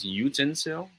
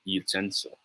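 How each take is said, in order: First: Utensil said YOO-ten-sil; common misplaced stress. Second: Utensil said yoo-TEN-sil; proper stress. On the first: Tutor shows what many Filipinos say, first-syllable stress. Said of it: "many of us says utensil". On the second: Tutor gives the proper pronunciation, second-syllable stress. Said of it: "it should be pronounced as". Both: Shown as a demonstration.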